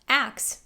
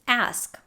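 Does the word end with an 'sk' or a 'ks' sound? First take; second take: ks; sk. First: The word ends with a k then s sound. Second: The word ends with an s then k sound. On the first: "might be pronounced as axe, swapping the S and K sounds" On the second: "The first word on this list is ask"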